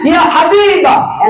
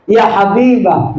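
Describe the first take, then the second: First: Drawn-out loving call. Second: Gentle loving call. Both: Retold or imitated. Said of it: "Enak, Pak".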